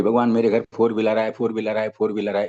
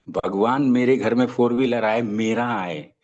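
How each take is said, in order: First: Said in the usual way. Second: मेरा set apart as its own added phrase; clear, specific request. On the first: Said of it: "बार बार बोलता रहता था". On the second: Shown as a demonstration. Speaker showing how to pray for a car, मेरा clearly added. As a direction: spell out the wish, adding मेरा deliberately. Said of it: "ऐसे बोलना होगा".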